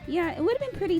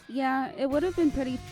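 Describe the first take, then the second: First: It is said in a put-on female character voice. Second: It is said in the speaker's own natural voice. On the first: The speaker calls it right. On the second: The speaker calls it wrong.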